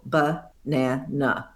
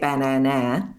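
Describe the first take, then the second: First: The first two vowels are reduced to schwa. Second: Every vowel is a full short a. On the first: The speaker calls it right. "it's got a schwa in the first syllable and a schwa in the second syllable" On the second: The speaker calls it wrong. "If you wanted to make it with all the A's short"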